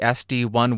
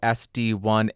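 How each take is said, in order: First: The upper mids are boosted for added presence. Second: The upper mids are flat and unboosted. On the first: "with the presence boost engaged but no low cut engaged" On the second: "in neutral mode"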